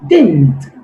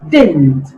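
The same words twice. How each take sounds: No difference in how they are said.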